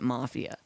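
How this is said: The word is said with an American pronunciation. "We pronounce it Mafia"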